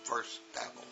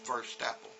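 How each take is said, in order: First: The T runs straight into the next word. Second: The same.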